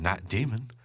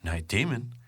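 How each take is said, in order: First: The pitch jumps up on 'demon'. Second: The same.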